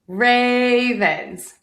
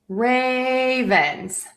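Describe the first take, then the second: The two takes are said the same way.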